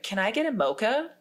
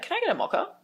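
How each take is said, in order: First: It is said in an American accent. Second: It is said in an Australian accent.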